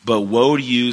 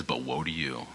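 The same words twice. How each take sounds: First: Woe rings out louder and higher; forceful reading. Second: Low, much softer, grave condemnation; condemning tone. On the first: Acted. Reading Jesus condemning the scribes, loud and high. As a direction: proclaim woe to the scribes, raised and strong. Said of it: "usually I would read this with more expression". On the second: Retold or imitated. Jesus turning on the Pharisees, low condemning tone. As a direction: drop down and pronounce judgment quietly. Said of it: "this is a very condemning tone to them".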